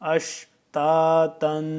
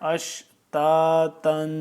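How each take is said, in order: Both takes have the same delivery.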